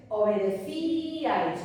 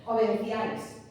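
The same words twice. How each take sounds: First: "obedecíais" with a long, stressed "cí", then a light "ais". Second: "Obedecíais" misread with the stress on the final "áis". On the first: Teacher giving the correct Castilian word, stress on the Í. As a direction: stretch the í in "obedecíais" as its own syllable. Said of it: "sabemos que en castellano es". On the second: Teacher showing students the word without its tilde, stress on A. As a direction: hit the A in "Obedecíais", gliding over the unaccented i. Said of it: "la fuerza de voz está en la A". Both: Shown as a demonstration.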